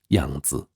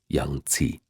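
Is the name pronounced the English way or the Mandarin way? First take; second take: Mandarin; English. First: The name is said with a Mandarin pronunciation. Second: The name is said with an English pronunciation.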